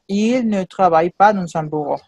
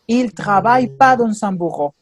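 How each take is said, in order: First: The word 'ne' is clearly pronounced. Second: The word 'ne' is left out entirely. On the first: This is the full written form. "Mais à l'écrit, quand il s'écrit, il doit ajouter ne" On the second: This is the casual spoken form. "à l'oral, il dit, il travaille pas dans un bureau. Il ne prononce pas ne"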